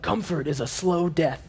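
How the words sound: It is said in a put-on, unnatural voice.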